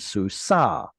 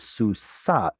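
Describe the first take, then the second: First: The word ends with an open vowel. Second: The word ends with a t sound. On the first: This is the later form of the word. "stopped pronouncing the t at the end of the word, and that became susa" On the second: This is the older form of the word. "historically it was susat"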